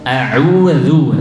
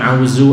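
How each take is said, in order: First: The middle consonant is a soft dh sound. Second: The middle consonant is a z sound. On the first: The speaker calls it right. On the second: The speaker calls it wrong. "bukan zaid"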